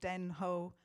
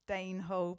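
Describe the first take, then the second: First: The first word has a short e vowel. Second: The first word has a long ay vowel.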